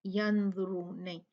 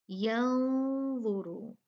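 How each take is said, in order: First: यंजुरून with a clear, fully spoken "n"; wrong pronunciation. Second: यंजुरू with the noon hidden in a long nasal hum; nasalized ikhfa. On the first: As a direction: say the noon sharply as the mistake. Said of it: "नून को clear नहीं पढ़ेंगे". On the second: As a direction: glide through with ghunna slowly. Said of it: "इसको गुन्ना दे के पढ़ेंगे". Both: Shown as a demonstration.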